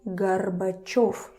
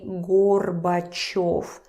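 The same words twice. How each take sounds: First: The first vowel is reduced to an A sound. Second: The first vowel is a full O sound. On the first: The speaker calls it right. "You say Gorbachev. Gar, gar, gar" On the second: The speaker calls it wrong. "You don't say Gorbachev"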